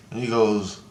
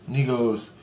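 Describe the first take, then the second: No difference in how they are said.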